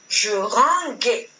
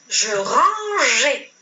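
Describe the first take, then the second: First: The g is hard, like in gare. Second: The g is soft, like the French j. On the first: The speaker calls it wrong. "Si je ne mets pas le E, je vais lire je ranguais" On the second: The speaker calls it right. "je dois ajouter le E pour conserver le son je"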